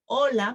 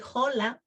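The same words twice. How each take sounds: First: The word starts directly with the o vowel. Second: The word starts with an audible h sound. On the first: The speaker calls it right. "we say hola because the H is silent" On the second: The speaker calls it wrong. "we don't say hola"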